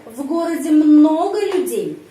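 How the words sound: Question tune with emphasis on много. It asks whether the city has many people. "Penekanan intonasi pada kata много"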